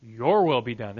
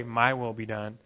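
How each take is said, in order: First: Your leaned on with a fall, as the right prayer; stress on your. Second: My said slightly lower and leaning on it as the wrong prayer; stress on My. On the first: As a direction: set against the last take by leaning on the word your. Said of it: "You pray". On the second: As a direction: set against the next take by leaning on the word My. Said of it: "You don't pray". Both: Shown as a demonstration.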